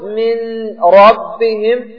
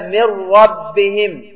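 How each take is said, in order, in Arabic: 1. تُنطق النون منفصلة قبل الراء. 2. تُدغم النون إدغامًا كاملًا في راء مشددة. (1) "لو قلت من ربهم للزم أن تعود إلى نفس المخرج وفيه ثقل" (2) "هكذا"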